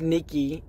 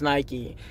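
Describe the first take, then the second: First: Nikki said as NEE-kee; Greek pronunciation. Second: Nike said as NY-kee; Nike rhyming with "spiky"; brand pronunciation. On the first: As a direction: say Nikki with an EE first vowel, like the goddess. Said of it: "the goddess name is". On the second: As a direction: say Nike with a long I. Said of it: "the brand name is". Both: Shown as a demonstration.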